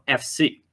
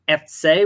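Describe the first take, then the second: First: The stress is on the second syllable. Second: The stress is on the first syllable. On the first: This is how most other places in Germany say it. "Most other places in Germany put the emphasis on the second syllable" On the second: This is the local Cologne way of saying it. "in Cologne they put the emphasis on the first syllable"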